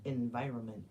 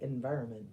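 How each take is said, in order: Both takes have the same delivery.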